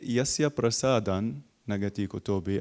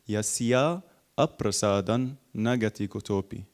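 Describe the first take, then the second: First: The 'a' after 'Yasya' is short. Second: The 'a' after 'Yasya' is held long. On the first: The speaker calls it wrong. "we don't stress on the" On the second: The speaker calls it right. "if you take it word for word"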